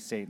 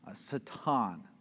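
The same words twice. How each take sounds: First: The word is said with an English pronunciation. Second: The word is said with a Hebrew pronunciation. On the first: "You can say Satan, that's fine" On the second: "I think is how you say it in Hebrew"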